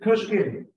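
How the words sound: The name is said as one joined word. The name is a single compound term. The speaker calls it right. "It's one thing"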